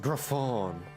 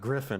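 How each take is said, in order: First: The word has a fancy French-sounding pronunciation. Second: The word has a plain English pronunciation. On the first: The speaker calls it wrong. "fancy French way of saying griffin" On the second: The speaker calls it right. "It's not a griffin"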